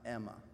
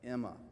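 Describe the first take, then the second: First: The name begins with an 'eh' sound. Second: The name begins with an 'ih' sound. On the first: The speaker calls it wrong. "not Emma" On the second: The speaker calls it right. "it's with an I, so it's like Emma"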